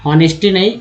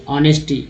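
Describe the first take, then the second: First: हॉनेस्टी said with a voiced H at the start; wrong take with the H sounded; wrong pronunciation. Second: ऑनेस्टी begins straight on the vowel with no H; silent H. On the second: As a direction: drop the H in ऑनेस्टी. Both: Shown as a demonstration. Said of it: "यहाँ अ से पढ़ते ऑनेस्टी".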